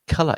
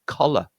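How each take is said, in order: First: "colour" with the first O said as a short uh. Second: "collar" with an open short O, as spelt; expected O vowel. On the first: Teacher correcting the expected sound, "colour" with uh vowel. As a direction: say "colour" with uh as in cut, stressed. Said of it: "the O is an uh sound". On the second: Teacher showing what learners might expect, "collar" with open O. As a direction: say "collar" with O in the first syllable. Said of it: "where you might expect it". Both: Shown as a demonstration.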